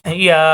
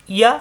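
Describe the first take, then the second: First: yeah with the final vowel held one long beat; long, sustained yeah; stretched vowel. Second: yeah said short, one quick beat; brief yeah, vowel cut short. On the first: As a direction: draw out the end of yeah. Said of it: "একালি পরিমাণ টান হবে". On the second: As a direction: clip yeah with no stretch. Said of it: "দ্রুত উচ্চারণ করতে হবে". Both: Shown as a demonstration.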